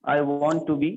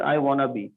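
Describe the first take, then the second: First: Want and to are said as separate full words. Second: Want and to are merged into one word, wanna.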